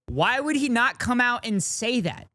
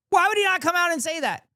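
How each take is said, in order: First: Said in the usual way. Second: Incredulous repeat. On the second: Real, not acted. Streamer repeating question, exasperated.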